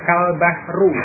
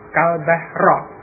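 First: The last word ends with a u vowel. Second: The last word ends with an a vowel. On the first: The noun is in the nominative case. "dengan membaca dhammah kal bahru" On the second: The noun is in the accusative case. "membacanya dengan fathah huruf akhirnya kal bahra"

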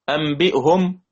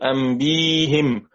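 First: The hamza is kept and it ends in 'hum'. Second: The hamza becomes 'y' and it ends in 'him'. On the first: "فلما نقرأ لحفص أنبئهم أنبئهم بنقرأ بضم الهاء" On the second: "ستتحول الضمة إلى كسر، أنبئهم ستصير أنبيهم"

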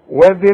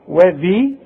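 First: The vowel after the dh sound is short. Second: The vowel after the dh sound is long. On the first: "اذا سمعتني يبقى من غير الياء وذي القربى" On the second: "ده اذا وقفت، وانت هتقف وهتقول لي وذي"

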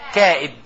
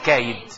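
First: A glottal stop separates the two vowels. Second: A smooth y-glide replaces the glottal stop. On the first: "اسم الفاعل من كاد، اللي هو إيه؟ كائد" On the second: "نخفف النبر فنقول كايد"

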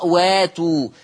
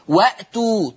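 First: The glottal stop becomes a long a vowel. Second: A glottal stop is heard after the first vowel.

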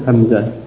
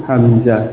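The two takes are said the same way.

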